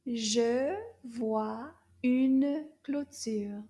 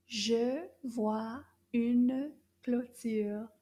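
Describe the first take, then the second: First: Very slow, a bit louder; slow repeat. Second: Very slow, careful sentence; slow French model. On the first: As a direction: repeat it slowly for them. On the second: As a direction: model it word by word. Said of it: "Toute la phrase". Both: Shown as a demonstration.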